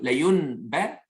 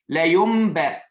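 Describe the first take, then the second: First: The nasal before b sounds like a plain n. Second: The nasal before b sounds like a held m. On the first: The speaker calls it wrong. "plutôt que la yunba" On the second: The speaker calls it right. "semi-prononcer le mime en faisant un nasillement pour deux unités de temps"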